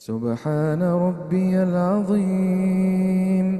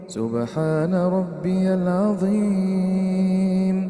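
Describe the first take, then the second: The two takes are said the same way.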